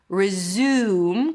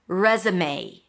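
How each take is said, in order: First: The u is said like the vowel in 'food'. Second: The u is not said like in 'food'.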